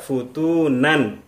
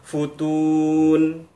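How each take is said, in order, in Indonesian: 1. Kata ini diakhiri dengan nunasi 'an'. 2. Kata ini berakhir mendadak pada 'n' saja. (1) "tidak kita baca futunan" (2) "atau kita baca futun"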